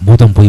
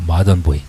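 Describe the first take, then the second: First: It is said with a Korean loanword pronunciation. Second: It is said with a native English pronunciation.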